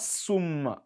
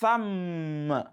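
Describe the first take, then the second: First: The word begins with an s sound. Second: The word begins with a th sound. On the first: The speaker calls it wrong. "Not sum" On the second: The speaker calls it right. "Place it at the middle of the teeth"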